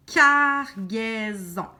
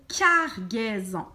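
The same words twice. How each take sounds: First: CARGAISON slowly split as car, gai, son, loud first syllable. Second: Said in the usual way. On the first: Shown as a demonstration. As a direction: stretch each syllable of CARGAISON for the learner. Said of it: "Couper ton mot en par syllabe". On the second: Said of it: "Tu répètes".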